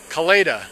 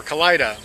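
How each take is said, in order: First: Kalida with the middle syllable like "lay"; long A in Kalida. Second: Kalida with the middle syllable like "lie"; long I in Kalida. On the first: Walker unsure of the town's name, long-A Kalida. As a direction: say Kalida as kuh-LAY-duh. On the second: Walker offering another town pronunciation, long-I Kalida. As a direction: say Kalida as kuh-LIE-duh. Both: Shown as a demonstration. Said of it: "Not sure how to pronounce that one".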